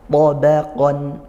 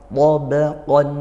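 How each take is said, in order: Both takes have the same delivery.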